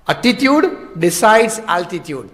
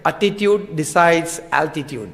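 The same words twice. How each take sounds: First: Slow repeat, ATTITUDE stressed; emphatic repeat. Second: Slow and soft, each word weighed; slow, deliberate proverb. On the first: Repeating the proverb to drive it home, slow. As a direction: press hard on Attitude as you repeat it. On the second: Quoting the proverb slowly to the congregation. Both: Shown as a demonstration. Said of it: "અંગ્રેજીમાં એક કહેવત છે".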